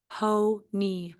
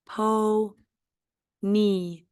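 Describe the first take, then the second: First: Said in the usual way. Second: "Po-ny" drawn out in two beats; syllable by syllable. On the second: Shown as a demonstration. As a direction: split into po and ny. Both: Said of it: "this is a two-syllable word".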